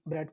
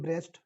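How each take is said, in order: First: The name has no s sound before t. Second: The name has an s sound before t. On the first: This is the pronunciation the class will use. "लेकिन ब्रेट पढ़ेंगे अपन" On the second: Some people pronounce it this way. "कुछ उसको वैसे pronounce करेंगे ब्रेस्ट"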